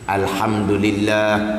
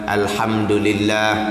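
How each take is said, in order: No difference in how they are said.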